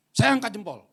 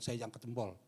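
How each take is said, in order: First: "Saya angkat jempol" repeated louder and higher. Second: Said in the usual way. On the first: Shown as a demonstration. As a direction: proclaim it to the whole church. ("Saya angkat jempol" diulang lebih keras)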